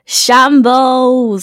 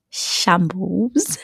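First: Loud, falling verdict; loud exclaim. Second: Quiet, rising. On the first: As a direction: declare it loudly and firmly. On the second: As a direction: let it trail up quietly. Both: Acted. One-word verdict, two takes.

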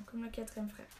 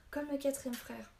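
First: Said in the usual way. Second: "Comme le quatrième frère" higher, in lively recognition; sudden realisation. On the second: A narrator's reading. Boy links the druid to the tale, realising. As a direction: jump in on "Comme le quatrième frère", pitch lifted.

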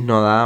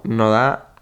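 First: Said in the usual way. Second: "no da" slowed right down, British lilt with a rising end; "no da" in a mock British accent; UK version. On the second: Shown as a demonstration. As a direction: drawl "no da" like a Brit, rising at the end. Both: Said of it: "versión Reino Unido".

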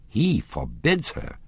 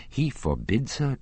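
First: Slow, high-pitched incredulous question; raised, drawn-out questioning echo. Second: Said in the usual way. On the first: A narrator's reading. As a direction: repeat it back in slow disbelief. Raoul questions what he heard.

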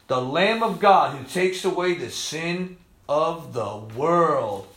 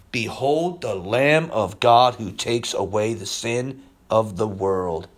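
First: Slow, soft murmur of wonder; awed repeat. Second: Slow, low, reverent reading; solemn proclamation. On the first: Real, not acted. Preacher marvelling at the verse, slow awed murmur. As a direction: savour each word quietly. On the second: Retold or imitated. Preacher voicing John the Baptist, slow reverent proclamation. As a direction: lower and slow down in awe.

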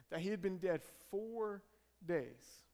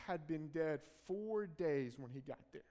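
First: Four held, then a pause before days. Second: Said in the usual way. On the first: Shown as a demonstration. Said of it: "a key statement".

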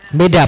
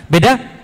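First: Beda. dropped low with a falling, settled tune; Beda. low and final; firm answer. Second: Beda? asked with a rising question tune; Beda? rising like a query. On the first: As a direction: answer your own question with a flat, certain Beda. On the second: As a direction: toss Beda? out to the audience as a question. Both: Shown as a demonstration. Rhetorical question then own answer.

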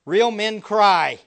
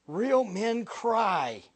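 First: Loud and slow, each word hammered; loud declaration. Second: Very slow, drawn out, weight on REAL; slowed emphasis. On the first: Preacher declaring to the congregation, loud and slow. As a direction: proclaim it to the back row. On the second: Preacher repeating it slowly so the congregation hears. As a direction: let it sink in, word by word. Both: Shown as a demonstration.

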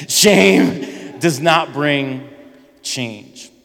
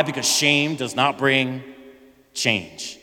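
First: Preacher's punchline stress with a laugh; drawn-out emphasis. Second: Said in the usual way. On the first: Shown as a demonstration. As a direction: lean hard on "Shame", then let "change" fall. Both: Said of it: "it shows how much you guys paid attention".

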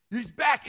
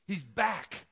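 First: "He's back" much higher and louder, nearly shouted; bursting repeat. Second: "He's back" said bright and eager; excited news. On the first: Servant hammering home the news to the brother, overjoyed. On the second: Servant breaking the news to the older brother, eager. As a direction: tease out the news "He's back" with a rising lift. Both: Acted.

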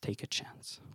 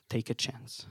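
First: Breathless whisper, fading out; whispered echo. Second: Much softer, repeated like a dying echo; fading echo. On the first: Echoing refrain, fading to whisper. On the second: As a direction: let the phrase fall away, barely there. Echoing refrain, fading away. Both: Acted.

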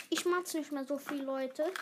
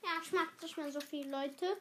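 First: Said in the usual way. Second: Talking while eating; eating, words round food; mouth full. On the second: Real, not acted. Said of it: "Deswegen esse ich leise mal".

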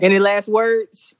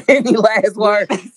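First: Slow, menacing "any last words"; villain voice. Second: Slow villain voice with a laugh; booming echoing villain monologue. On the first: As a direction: ask it like a movie villain. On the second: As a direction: loom over them like a movie villain. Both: Pretend. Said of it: "I don't wanna sound like a villain".

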